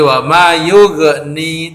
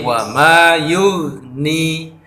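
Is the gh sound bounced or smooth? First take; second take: bounced; smooth. First: The gh sound is bounced with an echo. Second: The gh sound is held smoothly without bouncing. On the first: The speaker calls it wrong. "dibaca qalqalah atau dibaca pantul ... tidak boleh" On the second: The speaker calls it right. "tidak boleh dipantulkan"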